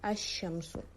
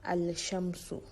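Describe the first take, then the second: First: The L blends into a doubled sh sound. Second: An L sound is heard before the sh. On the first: The speaker calls it right. "We pronounce it as Ash-Shamsu" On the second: The speaker calls it wrong. "we don't pronounce it as Al-Shamsu"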